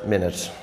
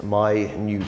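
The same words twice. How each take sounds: First: "minute" as MIN-it, stress on the first syllable; time word minute. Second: "minute" as my-NOOT, stress on the second syllable; "minute" meaning tiny, long second syllable, my-NYOOT. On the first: Teacher giving the time meaning of minute, MIN-it. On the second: Teacher showing the other pronunciation of minute, my-NOOT. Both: Shown as a demonstration. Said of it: "the pronunciation of that word is minute".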